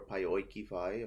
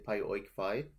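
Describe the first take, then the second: First: An extra vowel links the two words smoothly. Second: The words are joined with no extra vowel.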